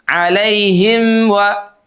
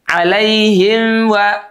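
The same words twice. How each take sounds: First: The m is weak, blending into the rounded wa. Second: The same.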